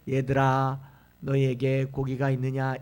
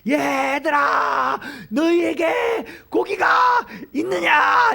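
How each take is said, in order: First: It is spoken at an ordinary conversational volume. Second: It is shouted loudly as if calling far away. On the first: It could not be heard from a hundred meters away. "이렇게 말하면 들리겠습니까?" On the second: A stranger is calling out from a distance. "이렇게 소리 지르는 거죠"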